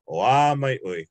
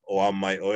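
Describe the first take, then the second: First: The vowel is drawn out long. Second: The vowel is kept short. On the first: The speaker calls it right. "you gotta what they call pull it. It needs to be elongated" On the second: The speaker calls it wrong. "instead of saying"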